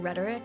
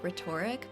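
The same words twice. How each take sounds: First: It is said the usual way. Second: It is said like the start of 'rhetorical'.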